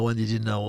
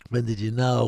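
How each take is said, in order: First: WHEN did you know, with the weight on when; demanding WHEN you found out; stress on when. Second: When did you KNOW, with the weight on know; asking pointedly when you KNOW; stress on know. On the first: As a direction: punch When at the start. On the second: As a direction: lean on know at the end. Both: Shown as a demonstration. Repeats question, shifting stress.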